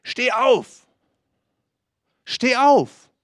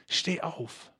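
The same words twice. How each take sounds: First: Higher and louder with each call; building command. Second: A much softer, urging call to get up; soft insistence. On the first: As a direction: call them to their feet ever more forcefully. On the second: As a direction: coax them to their feet gently. Quiet repeat of the command. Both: Acted.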